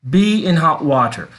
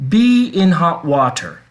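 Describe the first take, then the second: Both takes have the same delivery.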